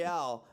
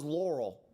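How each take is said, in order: First: "L'Oreal" as lor-ee-AL, three syllables; L'Oreal pronunciation. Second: "Laurel" as LOR-ul, two syllables; Laurel pronunciation. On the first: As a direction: open up the ending of "L'Oreal" to AL. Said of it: "not L'Oreal". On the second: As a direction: stress the first syllable of "Laurel", swallow the second. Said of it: "I thought it was Laurel". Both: Shown as a demonstration.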